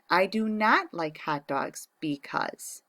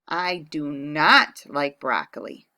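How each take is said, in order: First: "not" stressed in slow dictation. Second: "not" punched, slow and loud; stress on not. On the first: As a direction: lean on "not" slowly. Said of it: "The same with the hot dog". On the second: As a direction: lean on "not". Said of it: "write the opinion". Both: Shown as a demonstration.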